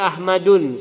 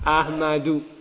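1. Kata ini berakhir dengan bunyi n. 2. Kata ini berakhir dengan vokal, tanpa n. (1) "Enggak boleh Ahmadun, salah" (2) "Yang benar adalah Ahmadu, dibuang N-nya"

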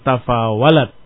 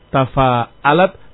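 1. Bunyi w terdengar di tengah. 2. Bunyi hamzah terdengar di tengah.

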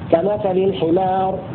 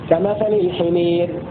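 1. الحركة الطويلة 'a' مفتوحة عادية. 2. الحركة الطويلة تميل نحو صوت 'e'. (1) "هذا بالفتح" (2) "أما بالإمالة"

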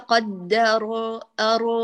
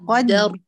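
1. الراء الأخيرة تُطلَق مع حركة صوتية. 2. الراء الأخيرة تُثبَّت ساكنةً بلا حركة. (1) "ليس قدر أر" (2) "محتاج تثبتي"

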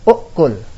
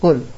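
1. Kata ini diawali vokal sebelum bunyi k. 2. Kata ini langsung diawali bunyi k. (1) "Pertama dengan asal, yaitu kita menetapkan huruf ini enggak kita buang" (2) "Yang kedua dengan takhfif, meringankan"

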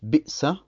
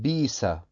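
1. Nach dem ersten Vokal hört man einen Glottisschlag. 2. Der Glottisschlag wird durch einen langen Vokal ersetzt. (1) "Sie sagten zum Beispiel nicht Bi'sa"

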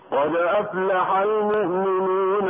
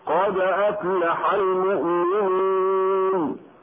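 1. تمضي الكلمة الأخيرة دون وقف. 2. تقف التلاوة على الكلمة الأخيرة. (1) "في الوصل بما بعدها كان المد طبيعيا بمقدار حركتين هكذا" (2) "عند الوقف على كل منها"

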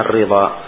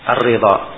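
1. Vokal setelah r adalah 'i'. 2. Vokal setelah r adalah 'i'.

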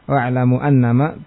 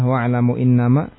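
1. Kata kedua diawali dengan vokal 'a'. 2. Kata kedua diawali dengan vokal 'i'. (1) "siapa yang membaca hamzanya dengan fathah" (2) "membaca dengan hamzah ataupun dengan kasrah pada hamzah"

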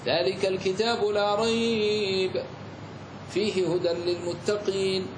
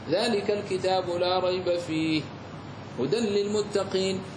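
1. وقف بعد "rayb" فقط. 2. وقف بعد "fih" فقط. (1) "جاز لك أن تقف على الأول" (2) "وجاز لك أن تقف على الثاني"

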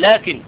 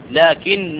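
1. النون قصيرة ومفردة. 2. النون مشددة ومدتها أطول. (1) "لا تقل لكن" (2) "النون مشددة"

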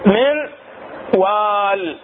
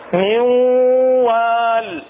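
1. تُنطق النون بوضوح قبل w. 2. تندمج النون في w مضعّفة ومغنّاة. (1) "نون ساكنة جبعتها شنو؟ أحد حروف الإدغام" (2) "شو راح يصير عندنا هنا؟"

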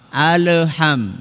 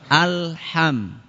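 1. Bunyi L mendapat pantulan tambahan. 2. Bunyi L biasa, tanpa pantulan.

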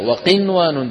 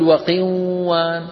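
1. يُنطق صوت النون بوضوح. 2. يُدغم صوت النون في الصوت الذي بعده. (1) "شايفين النون كيف مظهرة؟" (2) "ولا نقول"

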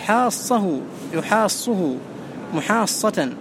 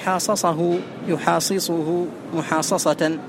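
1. يُدغم الحرفان المتماثلان في حرف واحد. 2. يُنطق الحرفان المتماثلان منفصلين. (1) "بل تقول" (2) "العرب لا تقول"

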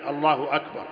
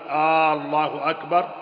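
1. لا تُمدّ أي حركة، والعبارة تُنطق عادية. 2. تُمدّ حركة همزة البداية مدًّا طويلًا. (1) "ولا بد من أن يقول الله أكبر" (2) "بمد الهمزة لم يصح"

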